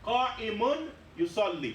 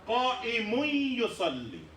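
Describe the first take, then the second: First: The n sound is pronounced separately before y. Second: The n sound merges into the following y.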